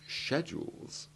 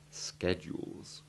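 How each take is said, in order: First: It begins with a sh sound. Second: It begins with a sk sound. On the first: "English people use the soft ch two sound" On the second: "Americans pronounce it with the hard ch"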